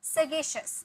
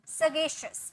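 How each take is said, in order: The two takes are said the same way.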